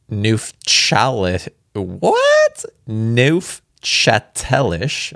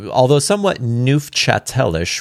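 First: Slowly spelling out Neufchâtelish syllable by syllable; Neufchâtelish said slowly, as a baffled question; puzzled sounding-out. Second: Neufchâtelish read through smoothly, nooftchatellish; just read Neufchâtelish on and move on; settled reading of Neufchâtelish; plain retake. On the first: Real, not acted. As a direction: stumble over Neufchâtelish, unsure. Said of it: "I don't know". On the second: Shown as a demonstration. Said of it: "That doesn't sound like a province".

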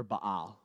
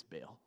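First: Baal said "bah-AHL"; Baal with broad ah. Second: Baal said like "bale"; Baal as one syllable. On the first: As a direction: stretch Baal into a long, open "ah". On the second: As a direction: say Baal to rhyme with "pale". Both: Shown as a demonstration. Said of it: "however you want".

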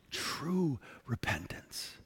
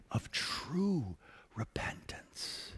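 First: Slow whisper, true stressed; whispered repeat. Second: Slow whisper, stress on true; whispered emphasis. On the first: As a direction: echo it softly, leaning on True. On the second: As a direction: hush it, leaning on true. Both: Shown as a demonstration.

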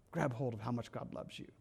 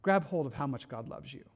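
First: "Grab hold of how much God loves you" said again much softer and lower, almost under the breath; hushed repeat. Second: Said in the usual way. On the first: Shown as a demonstration. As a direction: repeat it softly, drawing the listener in.

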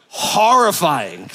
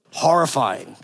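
First: "Horrifying" stretched very slow and deliberate; drawn-out horrifying. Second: Said in the usual way. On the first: Real, not acted. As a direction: drag out "Horrifying" for comic weight.

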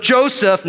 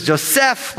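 First: "Joseph" stressed on the first syllable; "Joseph" with the weight up front on Jo; English pronunciation. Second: "Joseph" stressed on the last syllable; "Joseph" with the weight at the back on "sef"; Hebrew pronunciation. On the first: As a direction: say Joseph the common English way, JO-sef. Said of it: "but it's Joseph would be". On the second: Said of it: "Joseph's a common English name". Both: Shown as a demonstration.

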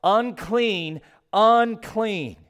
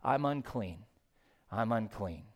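First: Rising, louder cry of Unclean; a mournful cry of Unclean, each one higher and louder; leper crying out. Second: Quiet lament. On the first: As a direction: call out Unclean like an outcast leper warning others. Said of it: "he shall cover his upper lip and cry out". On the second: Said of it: "take up the cry of the common leopard". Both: Acted.

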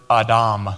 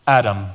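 First: "Adam" as ah-DAHM, both vowels open; Hebrew pronunciation. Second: Said in the usual way. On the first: Shown as a demonstration. Pastor showing the Hebrew word, "Adam" pronounced ah-DAHM. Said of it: "is the Hebrew word". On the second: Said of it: "that word man is the Hebrew".

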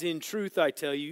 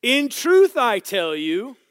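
First: Said in the usual way. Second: High, slow, booming scripture declaration; loud proclamation. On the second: Acted. Preacher reading the verse to the room, loudly proclaimed.

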